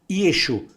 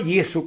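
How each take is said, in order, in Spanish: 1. La consonante del medio es un sonido sh. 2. La consonante del medio es un sonido s simple. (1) "Yeshu con la ese hache" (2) "no Yesu como dicen los griegos"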